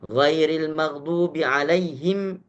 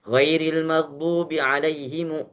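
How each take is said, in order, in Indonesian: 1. Kata terakhir berakhir dengan m mati. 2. Kata terakhir berakhir dengan vokal setelah m. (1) "Baru benar. jadi hanya boleh disukunkan saja"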